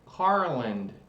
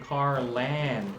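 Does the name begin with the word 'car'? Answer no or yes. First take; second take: no; yes. First: The first part does not sound like 'car'. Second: The first part sounds like the word 'car'. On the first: The speaker calls it wrong. "how I pronounced it the first time I saw it" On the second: The speaker calls it right. "it was actually Carland, because that's a car"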